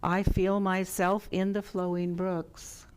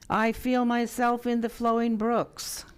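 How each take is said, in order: First: It is said in a normal speaking voice. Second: It is said with lots of energy. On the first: "This time in a normal speaking voice" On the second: "This first time with much energy"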